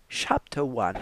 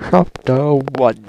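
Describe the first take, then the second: First: Said in the usual way. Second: Much louder, slow booming chapter call; slow booming announcement; grand announcement. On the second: Pretend. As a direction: boom it out like a trailer voice. Announces chapter, repeated bigger.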